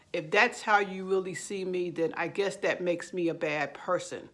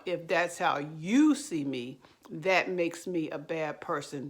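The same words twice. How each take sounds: First: Understated sarcasm, acted non-apology; mildly sarcastic mock concession. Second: "you" lifted and punched in "how you see me"; stress on YOU. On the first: Narcissist giving a fake apology to their partner, mildly sarcastic. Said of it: "They're actually saying it sarcastically". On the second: Shown as a demonstration. Narcissist turning blame on their partner, stress on "you". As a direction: lean hard on "you", mildly sarcastic. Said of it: "with the emphasis on".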